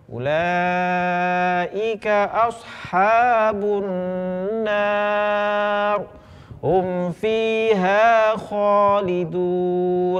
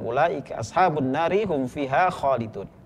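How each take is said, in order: First: There is a stop after 'ashabun nar'. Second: It flows on without a stop after 'nar'. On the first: "kalau kita berhenti juga boleh" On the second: "afdolnya adalah langsung"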